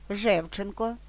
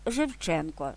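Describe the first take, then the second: First: Жевченко with the stress on «жев»; stress third from end. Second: Жевченко with the stress on «чен»; stress second from end. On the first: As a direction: say Жевченко stressed on the first syllable. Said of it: "третій склад від кінця". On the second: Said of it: "другий". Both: Shown as a demonstration.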